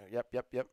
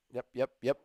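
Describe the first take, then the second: No difference in how they are said.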